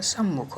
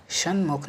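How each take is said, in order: First: सम्मुख with doubled m; corrected form. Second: सन्मुख with n before m; wrong form. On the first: Teacher corrects students, सम्मुख with double m. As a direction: hold the m in सम्मुख. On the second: Teacher shows the error, सन्मुख with n. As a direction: sound san-mukh for सन्मुख. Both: Shown as a demonstration. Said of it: "नहीं होता है".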